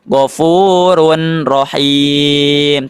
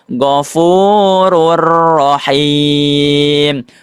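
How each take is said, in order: First: The n sound is heard before the r. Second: The n merges into a doubled r sound. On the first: The speaker calls it wrong. "Tidak dibaca Ghafurun Rahim" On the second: The speaker calls it right. "tapi dibacanya Ghafurur Rahim"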